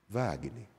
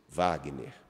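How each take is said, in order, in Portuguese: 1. O nome é dito suavemente e com ternura. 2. O nome é dito com firmeza, sem gritar. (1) "um jeito que ela me chamava, muito próprio" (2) "sem gritar, mas com firmeza dizem"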